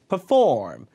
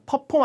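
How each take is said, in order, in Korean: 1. 강세는 두 번째 음절에 있어요. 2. 강세는 첫 번째 음절에 있어요. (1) "푸 앞에가 강세가 없으니까" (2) "perform 아니고"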